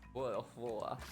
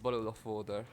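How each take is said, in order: First: It is said in a more British accent. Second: It is said in a less British accent. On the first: The speaker calls it right. "Is that better?" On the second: The speaker calls it wrong. "Not not British enough"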